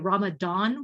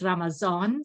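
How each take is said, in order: First: The last syllable begins with a D sound. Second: The last syllable begins with a Z sound. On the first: This is how the word is said in English. "in English, we say Ramadan with a D sound" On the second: This is how the word is said in Dari and Farsi. "in Dari and in Farsi, it's with a Z sound"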